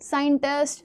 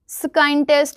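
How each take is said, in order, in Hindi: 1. यह शब्द साधारण s ध्वनि से शुरू होता है। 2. यह शब्द sk ध्वनि से शुरू होता है।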